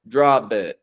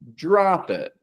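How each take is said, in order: First: The linking consonant sounds like a voiced B. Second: The linking consonant is a light, soft P. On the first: The speaker calls it wrong. "We don't want to pronounce this" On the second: The speaker calls it right. "a light, soft P"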